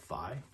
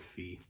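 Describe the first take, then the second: First: The vowel sounds like 'eye'. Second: The vowel sounds like 'ee'.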